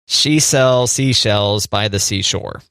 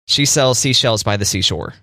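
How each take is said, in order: First: It is said slowly. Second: It is said fast.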